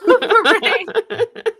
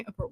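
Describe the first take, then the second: First: "A beret." stretched slow, higher and louder, laughing; drawn-out beret. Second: "beret" said softly, tossed off, much quieter. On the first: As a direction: draw out "A beret." with a laughing flourish. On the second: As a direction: mumble "A beret." under a laugh. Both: Shown as a demonstration. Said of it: "Well, yes, you could put a beret".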